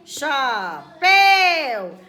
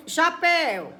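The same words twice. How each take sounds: First: "Chapéu" drawn out, booming on "péu"; stressed final syllable. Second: Said in the usual way. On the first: Shown as a demonstration. Teacher showing pupils the strongest syllable, "Chapéu" with "péu" loud and stretched. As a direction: say "Chapéu" slowly, much louder on the last syllable. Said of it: "qual é a sílaba mais forte". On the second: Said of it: "É só pronunciar".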